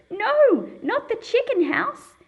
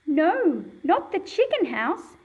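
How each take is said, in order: First: Much higher and louder panicked cry; shocked, worried shout. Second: Raised, upset exclamation; a first try at her dismay; alarmed cry. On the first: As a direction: cry out as your garden blows away. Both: Acted. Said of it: "the exclamation mark tells us something about the way she says it".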